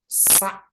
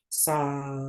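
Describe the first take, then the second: First: The syllable is cut off with an abrupt stop. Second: The syllable ends open and released, without a stop. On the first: The speaker calls it wrong. "tidak bisa terlanjut" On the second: The speaker calls it right. "Kalau yang betul itu yang tidak terputus"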